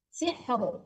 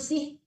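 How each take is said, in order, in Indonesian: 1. Kata ini berakhir dengan bunyi r yang terdengar. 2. Kata ini berakhir tanpa bunyi r. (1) "Jangan dihilangkan rohnya ya" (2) "Jangan sih"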